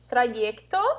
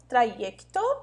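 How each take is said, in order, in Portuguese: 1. O y soa como a vogal ee. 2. O y soa como a vogal ee.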